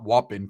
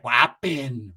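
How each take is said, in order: First: "whopping" said low and short; rejected short take. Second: "Whopping" stretched out, first vowel held long; drawn-out catchphrase. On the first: Shown as a demonstration. Storyteller showing what Ricky didn't say, short low "whopping". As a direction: say "whopping" compactly, without stretching it. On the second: Retold or imitated. Ricky out of the water, long drawn-out "Whopping". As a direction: draw "Whopping" out in two long halves. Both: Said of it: "he hadn't had the whopping voice yet".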